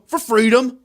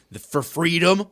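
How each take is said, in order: First: Much higher, loud triumphant chant; shouted rally cry. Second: Said in the usual way. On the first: Acted. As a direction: yell it like a protest chant.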